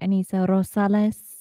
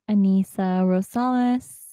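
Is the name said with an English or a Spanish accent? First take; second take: Spanish; English. First: The name is said with a Spanish accent. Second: The name is said with an English accent.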